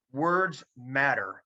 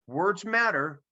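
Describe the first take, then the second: First: Very slow, each word weighted; second take dragged out for weight; slow emphasis. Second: Words matter lifted high; first, higher take of the line; raised emphasis. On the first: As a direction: let it land slowly. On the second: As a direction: punch it up bright. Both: Shown as a demonstration. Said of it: "repeated for emphasis".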